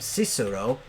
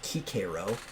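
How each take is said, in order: First: The name is said the common modern way. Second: The name is said the old classical way. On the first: This is how people usually say it today. The speaker calls it wrong. "they often mispronounce his name" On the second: This is how it was said in his own time. The speaker calls it right. "so it would have been pronounced Cicero"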